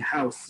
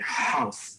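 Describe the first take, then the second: First: It begins with a light English h. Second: It begins with a raspy h from the throat. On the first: "instead of saying house" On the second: "you would say house. ... much raspier in the back of your throat"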